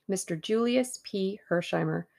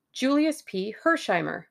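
First: Said in the usual way. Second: Name called out high, then falling; sudden realisation. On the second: A narrator's reading. Tommy voicing the thought they both had, sudden realisation. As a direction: blurt the name as it dawns on you.

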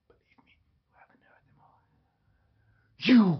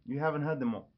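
First: Slow, drawn-out theatrical whisper; dramatic whisper. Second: Said in the usual way. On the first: Pretend. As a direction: whisper it slowly like a secret boast. Boast repeated in whisper.

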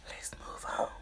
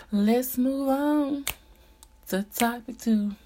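First: Soft breathy whisper. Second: Said in the usual way. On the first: Real, not acted. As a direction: whisper it to yourself. Whispered aside before the next topic.

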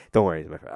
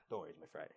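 First: Said in the usual way. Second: Very low, hushed reassurance; soft, low imitation of a confiding aside; quiet aside. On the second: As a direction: murmur it privately to the listener. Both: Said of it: "He's like saying this to me".

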